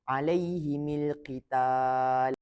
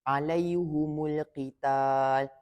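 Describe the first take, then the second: First: Both the h and the m take an i. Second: Both the h and the m take a u. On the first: "meletakkan baris bawah pada huruf mim jamak" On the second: "baris depan di huruf ha dan mim"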